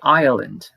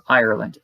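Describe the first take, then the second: First: The R after the vowel is dropped. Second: The R after the vowel is pronounced.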